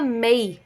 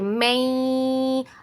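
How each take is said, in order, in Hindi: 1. इसे बिना नासिका की लंबी ध्वनि के छोटा बोला जाता है। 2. इसे नाक से लगभग दो सेकंड तक रोका जाता है। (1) "अगर हम इसको स्किप करेंगे तो मीम या के साथ मिलेगा मई" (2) "दो सेकंड्स तक रुकना है उसकी साउंड पर, ऐसे"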